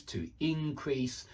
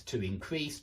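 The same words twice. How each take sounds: First: Increase stressed on the first syllable, soft, slow; alternative verb stress. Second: Increase stressed on the second syllable, soft, low; verb stress. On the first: Teacher showing both pronunciations, first-syllable stress on increase. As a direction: softly hit IN in increase. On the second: Teacher showing both pronunciations, second-syllable stress on increase. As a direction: land softly on CREASE in increase. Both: Shown as a demonstration. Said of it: "I can imagine both pronunciations being used".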